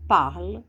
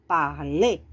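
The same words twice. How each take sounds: First: Parle with the weight on the first syllable, par; stress on the start. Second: Parler with the weight on the final syllable, ler; stress on the end. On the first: Teacher to students, showing Parle stressed on the first syllable. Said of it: "Aqui já é a ênfase no começo". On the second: Teacher to students, showing Parler stressed on the final syllable. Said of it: "dá uma ênfase aqui no final". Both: Shown as a demonstration.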